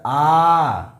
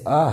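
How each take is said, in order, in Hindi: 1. स्वर लगभग तीन गुना देर तक खींचा जाता है। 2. स्वर बहुत थोड़ी देर के लिए बोला जाता है। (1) "ये हमारा हो गया प्लुत" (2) "ह्रस्व हो गया"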